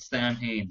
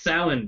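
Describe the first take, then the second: First: The name is pronounced the American way. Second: The name is pronounced the Irish way. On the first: The speaker calls it wrong. "everyone in America calls it Samhain" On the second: The speaker calls it right. "It's Samhain"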